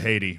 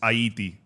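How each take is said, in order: First: The name is said the American way. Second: The name is said the Haitian way. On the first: The speaker calls it wrong. "Haiti would be how you say it as an American, which is not right" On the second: The speaker calls it right. "If you want to pronounce it like a Haitian, it's Haiti"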